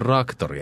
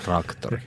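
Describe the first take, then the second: First: The word starts with a single r sound. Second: The word starts with a tr cluster. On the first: This is how spoken Finnish would adapt it. "Kyllä se on raktori eikä traktori" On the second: This is the standard written form. "eikä traktori"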